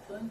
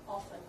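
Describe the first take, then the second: First: The middle consonant is a P sound. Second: The middle consonant is an F sound. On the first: The speaker calls it wrong. "P 발음 나면 안 돼요" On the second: The speaker calls it right. "F 발음이에요"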